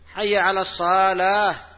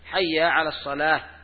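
First: The vowel after the s sound is drawn out. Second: The vowel after the s sound is kept short. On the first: It sounds like a call to a hall, not to prayer. The speaker calls it wrong. "وإذا قال حيا على الصلاة ومد بعد الصاد، يصير حيا على الصالة" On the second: It is a call to prayer. The speaker calls it right. "لا، حي على الصلاة"

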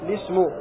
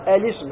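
First: It starts directly with an l and an i vowel. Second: It starts with a glottal stop and an a vowel. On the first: "حذفها والابتداء بلام مكسورة هكذا" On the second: "الابتداء بها مفتوحة وكسر اللام هكذا"

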